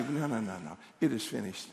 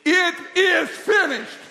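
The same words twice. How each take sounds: First: Low, soft declaration; understated, settled refusal; quiet self-talk. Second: Slow, high, loud proclamation; emphatic declaration. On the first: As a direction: say it quietly to yourself. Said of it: "just say". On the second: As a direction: shout each word separately, stretched out. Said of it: "And what do you say?". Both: Shown as a demonstration.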